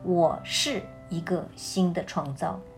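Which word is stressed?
是. The stress is on the word 是.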